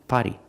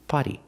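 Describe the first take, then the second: Both takes have the same delivery.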